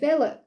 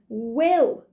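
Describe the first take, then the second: First: The name begins with a V sound. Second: The name begins with a W sound. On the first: "but she pronounced it Villa" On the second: "you could say it's Ellen Will"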